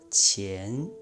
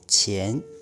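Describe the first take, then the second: First: The word is said slowly and drawn out. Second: The word is said at normal speed.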